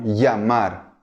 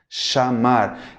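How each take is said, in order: First: The ll is said like an English y. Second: The ll is said like an sh sound. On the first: This is how it is said in some Latin American places. "va a ser pronunciado como si fuera un I, E o I A" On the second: This is how it is said in Argentina and Uruguay. "vai ser parecido ao som do C H do português"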